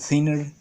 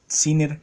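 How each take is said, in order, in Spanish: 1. La palabra se dice con sonidos al estilo inglés. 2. La palabra se dice con sonidos del español latinoamericano. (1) "se dice thinner" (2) "en Latinoamérica se pronuncia Thinner"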